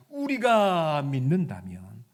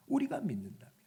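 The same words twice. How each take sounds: First: Slow, loud weight on 우리가 with a rise; slow emphatic. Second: Said in the usual way. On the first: Shown as a demonstration. Preacher stressing 우리가 slowly to the congregation. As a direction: lean hard on 우리가 and draw it out. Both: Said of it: "repeated with contrast".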